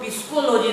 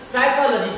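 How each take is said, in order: First: The word starts with a sounded p. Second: The word starts with an s sound. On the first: The speaker calls it wrong. "नहीं पढ़कर" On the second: The speaker calls it right. "साइकोलॉजी पढ़ते हैं"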